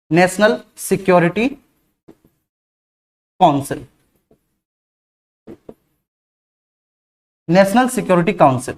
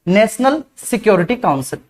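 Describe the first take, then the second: First: Slow dictation to students. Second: Said in the usual way. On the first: Shown as a demonstration. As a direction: dictate it slowly so students can write. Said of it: "इसे English में कहेंगे". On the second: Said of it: "क्या कहेंगे इसको?".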